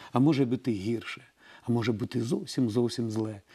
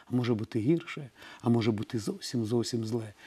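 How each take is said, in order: The two takes are said the same way.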